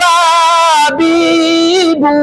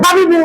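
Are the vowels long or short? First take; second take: long; short. First: The vowels are drawn out long. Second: The vowels are short and said quickly. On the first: The speaker calls it wrong. "আমি যে ভুলটা করলাম ... ছিল হরকত হয়ে গেল মাদ" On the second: The speaker calls it right. "হরকতের উচ্চারণ তাড়াতাড়ি করতে হয়"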